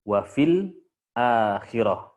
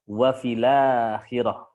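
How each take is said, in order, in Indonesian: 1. Hamzah terdengar sebelum akhirah. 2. Hamzah dihilangkan dan kedua kata menyambung.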